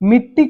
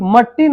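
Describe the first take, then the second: First: The first vowel sounds like short 'i'. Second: The first vowel sounds like 'a'. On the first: The speaker calls it right. "मिट्टी होता है ना, छोटी ई का मंत्रा लगा देते हैं" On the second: The speaker calls it wrong. "मट्टी नहीं होता है भाई"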